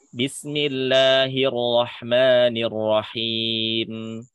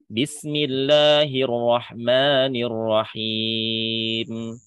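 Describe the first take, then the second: The two takes are said the same way.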